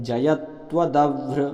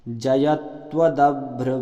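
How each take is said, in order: The two takes are said the same way.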